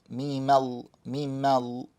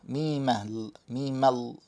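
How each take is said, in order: No difference in how they are said.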